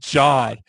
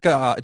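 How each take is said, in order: First: The word begins with a J sound. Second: The word begins with a hard G sound. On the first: The speaker calls it right. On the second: The speaker calls it wrong.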